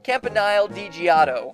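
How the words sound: It is said in an American accent.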